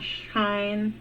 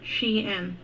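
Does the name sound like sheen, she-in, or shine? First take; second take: shine; she-in. First: The name rhymes with the word line. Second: The name is said as two syllables, she-in. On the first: The speaker calls it wrong. "not Shine" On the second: The speaker calls it right. "It is Shein"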